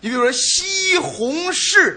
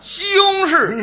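First: It is said in standard Mandarin. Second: It is said in a Beijing accent.

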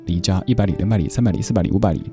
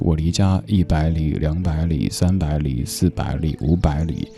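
First: The counting is said fast. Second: The counting is said slowly.

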